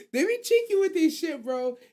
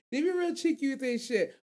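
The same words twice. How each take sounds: First: High, loud burst of delight; excited exclaim. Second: Said in the usual way. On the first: Real, not acted. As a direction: yelp it out with glee. Gleeful exclaim about the cheeky scene.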